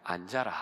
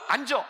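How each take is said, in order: First: It is said very quietly and softly. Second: It is said loudly and forcefully.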